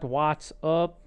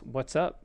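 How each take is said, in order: First: The vowel in up is a full vowel. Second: The vowel in up is a relaxed uh. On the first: The speaker calls it wrong. "It's not "what's up"" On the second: The speaker calls it right. "It's "what's up." It has that same sound"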